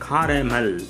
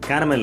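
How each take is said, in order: First: The first vowel is an 'ah' sound. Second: The first vowel is an 'eh' sound. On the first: The speaker calls it right. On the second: The speaker calls it wrong.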